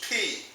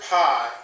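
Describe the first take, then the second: First: The vowel sounds like the one in 'peach'. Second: The vowel sounds like the one in 'pie'. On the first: The speaker calls it right. "the correct pronunciation is P, as in the uh, English word peach" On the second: The speaker calls it wrong. "We are used to calling this word pi in mathematics and algebra"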